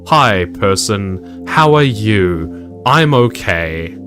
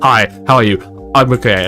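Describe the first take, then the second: First: It is said at a slower pace. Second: It is said very fast, in two seconds.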